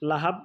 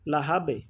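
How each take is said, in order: First: The final b stops flat without a release. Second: The final b ends with a bouncing release. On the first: The speaker calls it wrong. "লাহাব না বলে" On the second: The speaker calls it right. "ধাক্কা দিয়ে উঠতে হবে"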